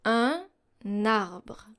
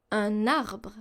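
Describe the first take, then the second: First: Un and arbre split apart, no n link; unlinked words. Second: Un arbre joined, "uh-narbre"; linked liaison. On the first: Teacher contrasting split words before the liaison. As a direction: say un, pause, then arbre separately. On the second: Teacher showing the joined form after the split one. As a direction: carry the n of un onto arbre. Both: Shown as a demonstration. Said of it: "for example".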